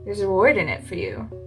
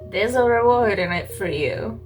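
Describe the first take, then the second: First: It is said in the speaker's ordinary accent. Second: It is said in a put-on New York accent.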